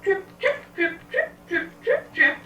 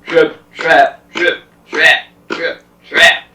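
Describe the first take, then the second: First: Very high, squeaky little hoofbeats; tiny trip-trap steps. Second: Loud, stomping hoofbeats; heavy trip-trap steps. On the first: Little goat crosses the bridge, tiny high-pitched steps. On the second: Big goat stomps over the bridge, loud heavy steps. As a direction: pound out each word separately, forcefully. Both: Acted.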